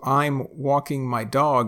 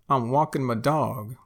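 First: It is said in a standard accent. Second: It is said Texas-style, dropped G, 'muh'.

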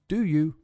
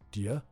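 First: Both words are said fully and separately. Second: The words blend into one syllable, 'dia'.

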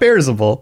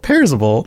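First: The name begins with a B sound. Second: The name begins with a P sound. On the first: The speaker calls it wrong. "Not Bearzable" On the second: The speaker calls it right. "Pears, P-E-A-R"

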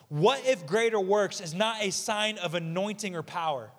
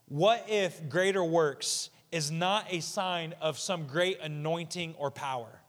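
First: It is said at a normal pace. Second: It is said slowly and deliberately.

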